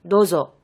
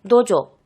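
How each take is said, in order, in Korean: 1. 둘째 음절은 'z' 소리로 시작해요. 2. 둘째 음절은 'j' 소리로 시작해요. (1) "맞는 발음" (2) "틀린 발음"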